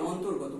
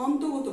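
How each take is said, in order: First: অন্তর্গত with the r sounded, as "ontor-goto"; r pronounced. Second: অন্তর্গত said without the r, as "ontogoto"; r left out. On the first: Teacher giving pupils the spoken form, অন্তর্গত with its r kept. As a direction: sound the r clearly in the middle of অন্তর্গত. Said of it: "রটা কিন্তু উচ্চারণ করব". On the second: Teacher showing pupils what not to say, অন্তর্গত with its r dropped. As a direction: drop the r sound from অন্তর্গত, saying "onto-goto". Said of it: "অন্তর্গত বলবো না". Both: Shown as a demonstration.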